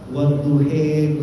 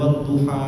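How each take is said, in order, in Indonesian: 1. Vokal akhirnya condong ke bunyi 'e'. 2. Vokal akhirnya bunyi 'a' yang terbuka. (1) "ada qiraah wadduhe, ya ya, Syu'bah"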